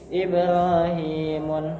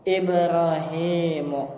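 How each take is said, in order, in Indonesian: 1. Kata ini berakhir dengan u lalu n. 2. Kata ini berakhir dengan vokal u biasa. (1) "Apabila membaca betanwin Ibrahimun, berarti kada tahu lawan peraturan ilmu nahwu" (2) "Ibrahimu itu kada mau betanwin"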